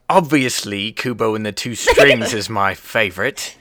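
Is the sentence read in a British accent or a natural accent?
British. It is read in a put-on British accent.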